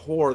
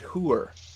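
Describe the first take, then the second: First: It is said with the standard pronunciation. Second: It is said with the regional pronunciation. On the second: "they said hooer"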